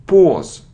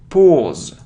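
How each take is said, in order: No difference in how they are said.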